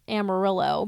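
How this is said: It is said with an American English pronunciation. "the Americans would call it Amarillo"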